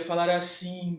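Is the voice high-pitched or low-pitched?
low. The voice is pitched noticeably low. "eu poderia falar num som grave. Eu poderia falar assim, bem mais baixo"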